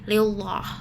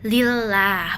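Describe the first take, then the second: First: The L sound is heavy and thick. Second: The L sound is light and thin. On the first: The speaker calls it wrong. "bukan tebal" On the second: The speaker calls it right. "bunyi lam dibaca tipis atau lembut"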